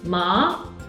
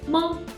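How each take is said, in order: First: It is said with the second tone. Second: It is said with the neutral tone. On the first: It means a kind of hemp. "is the second tone" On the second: It marks a question. "This character is a neutral tone"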